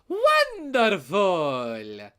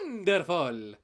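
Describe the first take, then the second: First: The word is said with big, exaggerated inflection. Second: The word is said with restrained, subtle inflection. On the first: "the inflection on the new Mario's voice, where he's like ... It's very exaggerated" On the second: "I personally would have gone more, more subtle"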